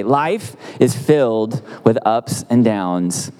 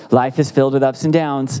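First: Slow, weighty delivery; slow, deliberate. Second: Said in the usual way. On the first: Shown as a demonstration. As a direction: let each word land slowly.

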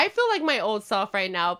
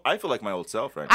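First: Lazy, heavy-lidded delivery; stoner. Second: Stoned and relaxed; stoner. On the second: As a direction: talk like you're high. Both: Real, not acted. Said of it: "I'm pretty high right now".

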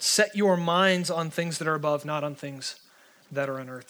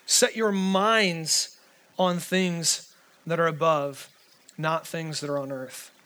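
First: Said in the usual way. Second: "Set your minds" drawn out very slowly, each word weighed; slow, weighty emphasis. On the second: Shown as a demonstration. Pastor repeating the verse to the room, slow and weighty. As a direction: lean hard on every word, very slowly. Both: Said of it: "Did you hear that?".

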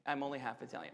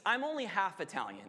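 First: A guilty little confession, dropped low; sheepish admission. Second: Said in the usual way. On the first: Real, not acted. Preacher confessing his heritage, low and soft. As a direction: lower and much softer, owning up. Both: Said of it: "I'm admitting".

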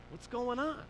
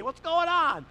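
First: Gentle concern. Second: Loud, high, hearty call; booming phone greeting. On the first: Dad checking on an upset caller, gentle concern. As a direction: carefully ask what is wrong. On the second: Dad greeting a caller on speakerphone, loud and cheery. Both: Retold or imitated.

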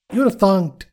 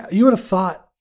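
First: Thunked said as a silly mangled past tense of think; deliberately botched thunked; joke wrong word. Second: Said in the usual way. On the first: Shown as a demonstration. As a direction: land thunked as a goofy made-up word. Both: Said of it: "I don't like words".

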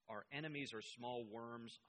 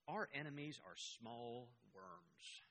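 First: Said in the usual way. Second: Slow quote. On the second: Retold or imitated. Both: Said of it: "Hitler told his generals".

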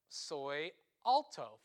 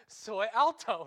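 First: Soy alto drawn out slowly in Spanish; slow Spanish demo. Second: Soy alto called out loud with a laugh behind it; loud joking Spanish. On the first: Preacher showing the Spanish phrase to the congregation, slow and deliberate. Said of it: "You learned that you could say". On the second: Preacher joking about his height, loud playful call. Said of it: "laughs so". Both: Shown as a demonstration.

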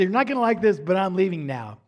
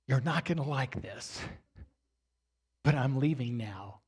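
First: Louder, quicker, pleased replay of a best line; proud replay. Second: Low, soft, composed defiance with a pause midway. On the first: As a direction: repeat it brightly, proud of the line. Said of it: "it was my best line". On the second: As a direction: state it quietly, holding your composure. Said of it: "got my composure back". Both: Retold or imitated.

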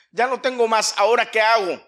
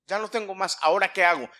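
First: High, loud acted appeal; insistent repeat. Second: Acted helpless question. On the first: Warrior out of arrows asks what now, insistent. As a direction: push it out louder, demanding an answer. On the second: Acts warrior out of arrows, first take.

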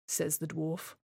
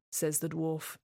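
No difference in how they are said.

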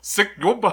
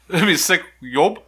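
First: Laughing, reading a word reversed; backwards speech. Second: Backwards speech. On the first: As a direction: say it as if played in reverse. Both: Shown as a demonstration. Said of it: "That's boy kisses backwards".

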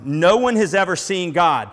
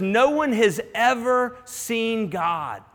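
First: Louder, punching the word one; ringing declaration of one; proclaimed loud. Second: Slow, weighty, word by word; unhurried scripture reading; slow quoting. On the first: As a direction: announce it like a revelation to the whole room. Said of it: "this statement that blows your mind". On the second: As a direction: let each word of no one has ever seen God land slowly. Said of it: "when he says". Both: Shown as a demonstration.

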